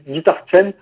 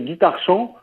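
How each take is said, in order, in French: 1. La phrase est prononcée avec des sons anglais. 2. La phrase est prononcée avec des sons français. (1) "en anglais, on dit plutôt guitar chant, comme ça" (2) "si on le dit et qu'on l'orthographie en français, ça fait guitare chant"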